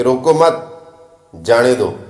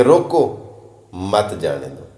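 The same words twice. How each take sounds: First: ਰੋਕੋ ਮਤ joined and rising, pause, then ਜਾਣੇ ਦੋ; pause after ਮਤ. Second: ਰੋਕੋ set apart, then ਮਤ ਜਾਣੇ ਦੋ lower as one group; pause after ਰੋਕੋ. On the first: Speaker joining the first two words, pause after ਮਤ. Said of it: "ਅਗਰ ਦੋ ਲਫ਼ਜ਼ ਪਹਿਲੇ ਇਕੱਠੇ ਮਿਲਾ ਲਈਏ". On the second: Speaker explaining a four-word phrase, pause after ਰੋਕੋ. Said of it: "ਮਾਨੀ ਮਤਲਬ ਮਕਸਦ ਹੀ change". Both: Shown as a demonstration.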